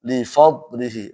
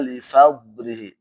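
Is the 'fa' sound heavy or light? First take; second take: heavy; light. First: The fa is thick and heavy, like fo. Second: The fa is thin and light, a clear fa. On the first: The speaker calls it wrong. "di sini enggak boleh dibaca li fadlihi, li fo" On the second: The speaker calls it right. "Jadi jangan sampai uh, fa-nya ikut ke dotnya"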